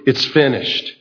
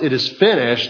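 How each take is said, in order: First: It is said in a defeated, dejected tone. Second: It is said in a strong, triumphant tone. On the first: Everything is over and the hopes are lost. The speaker calls it wrong. "it would be possible to take that in a tone of dejection" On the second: The task has been successfully completed. The speaker calls it right. "there was a definite note of triumph in those words"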